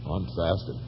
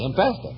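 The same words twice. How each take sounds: First: It is said in a sorrowful, mournful tone. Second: It is said in a cheerful, upbeat tone. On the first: Fasting is penance and sorrow. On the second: Fasting is a happy thing.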